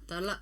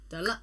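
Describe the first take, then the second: No difference in how they are said.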